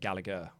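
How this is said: The name has a British pronunciation. The speaker calls it right. "we in the U K would say"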